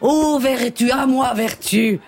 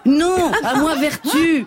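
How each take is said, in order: First: Lofty tragic princess plea; calling on virtue, grandly; haughty aristocratic french. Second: Laughing exclamation. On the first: (princesse hautaine et tragique) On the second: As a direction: cry out for virtue, cracking up. (s'écrier en riant) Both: Acted. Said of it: "je joue la princesse de Clèves".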